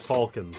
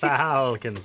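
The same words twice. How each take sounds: First: The l sound is pronounced in the word. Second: The l sound is silent in the word. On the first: The speaker calls it wrong. "Not falcons" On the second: The speaker calls it right. "like salmon"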